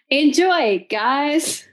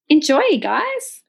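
First: The voice falls at the end like a statement. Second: The voice rises at the end like a question. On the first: It sounds like a confident statement. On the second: It sounds unsure, like a question.

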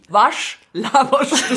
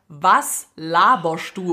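First: It is said with a Swabian accent, with sch. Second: It is said in standard German, with a plain s.

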